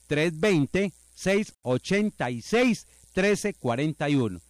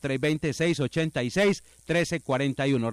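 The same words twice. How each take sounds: First: It is said slowly and softly. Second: It is said at a faster pace.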